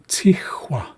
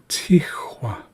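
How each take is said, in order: The two takes are said the same way.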